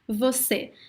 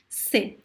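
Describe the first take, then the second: First: Both syllables are said in full. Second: Only one short syllable is said.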